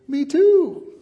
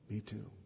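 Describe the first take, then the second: First: It is said in a cheerful, excited tone. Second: It is said in a sad, sombre tone. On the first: The speaker shares a happy plan. "But if I said it like this, hey, I'm going to Disneyland" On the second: The speaker shares a painful loss. "I just lost a child last year"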